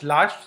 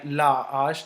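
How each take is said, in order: First: The two words run together as one. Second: The two words are kept apart. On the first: The speaker calls it wrong. "you cannot link it like la ash lash" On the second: The speaker calls it right. "you cannot link it"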